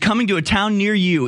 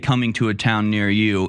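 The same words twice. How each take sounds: First: It is said in an excited, happy tone. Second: It is said in a grim, disapproving tone.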